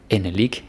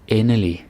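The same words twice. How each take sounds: First: The final G sound is pronounced. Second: The final G sound is left silent. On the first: The speaker calls it wrong. "It's not endelig" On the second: The speaker calls it right. "That's a silent G"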